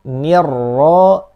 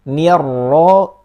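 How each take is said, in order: The two takes are said the same way.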